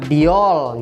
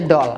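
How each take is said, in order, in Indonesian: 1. Bunyi 'ee' muncul di antara d dan o. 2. Huruf d langsung bertemu dengan vokal o. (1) "enggak diol" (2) "tetap aja doll"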